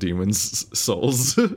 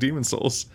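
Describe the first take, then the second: First: A distinct pause separates the two words. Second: The two words run together without a pause. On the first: The speaker calls it right. "You have to have a distinct pause in order to actually say it" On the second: The speaker calls it wrong. "Otherwise, it just sounds like it's like you're saying Demon's Souls"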